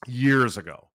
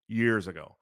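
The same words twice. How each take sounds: First: "years ago" said louder and pressed; emphatic. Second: Said in the usual way. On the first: Shown as a demonstration. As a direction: lean hard on "years ago".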